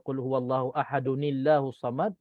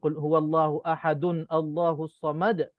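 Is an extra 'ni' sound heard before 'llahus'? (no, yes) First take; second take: yes; no. First: Ahadun links to llahus through an added 'ni' sound. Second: Ahadun runs straight into Allahus with no 'ni'. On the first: The speaker calls it right. "imam baca" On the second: The speaker calls it wrong. "kalau kita baca macam tu memang salah"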